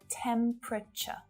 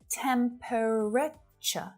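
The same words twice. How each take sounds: First: The word is reduced, with a syllable dropped. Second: Every syllable of the word is said in full. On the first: The speaker calls it right. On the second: The speaker calls it wrong.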